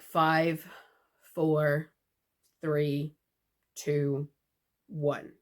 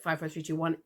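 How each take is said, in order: First: The countdown is said slowly. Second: The countdown is said fast.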